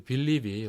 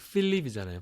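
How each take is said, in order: First: The name begins with a soft B sound. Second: The name begins with an aspirated P sound. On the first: This is the familiar form of the name. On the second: This is the original pronunciation of the name.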